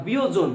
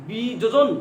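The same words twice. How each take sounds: First: "বিয়োজন" said bi-yojon, first j turned to y; actual pronunciation. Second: "বিযোজন" said bi-jojon, with both j sounds; expected spelling sound. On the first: Teacher corrects to the real form, "বিয়োজন" as bi-yojon. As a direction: glide into "বিয়োজন" as biyojon. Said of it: "হয়ে গেছে". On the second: Teacher offers the form then rejected, "বিযোজন" as bi-jojon. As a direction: keep the first j in "বিযোজন": bi-jojon. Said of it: "হয়ে গেল কি". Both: Shown as a demonstration.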